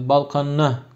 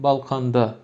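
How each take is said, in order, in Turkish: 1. Ek çift n sesiyle başlar. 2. Ek d sesiyle başlar. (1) "iki n ile söyleyen de duyabilirsiniz" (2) "derim ben şahsen"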